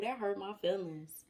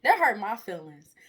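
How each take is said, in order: First: Said in the usual way. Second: "That hurt my feelings" said much louder; louder repeat. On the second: Shown as a demonstration. Preacher repeats it louder for the congregation, louder. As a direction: hit it harder the second time.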